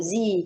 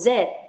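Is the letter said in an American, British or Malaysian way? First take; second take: American; Malaysian. First: The letter is said the American way. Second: The letter is said the Malaysian way.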